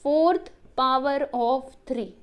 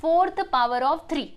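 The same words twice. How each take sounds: First: Fourth power of three drawn out, every word stretched; very slow repeat for pupils. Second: Fourth power of three said slowly and clearly; slow demo reading. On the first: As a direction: repeat it very slowly so children copy it. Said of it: "तो क्या बोल सकते हो बच्चों". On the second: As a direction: model the alternate reading slowly. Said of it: "कैसे". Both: Shown as a demonstration.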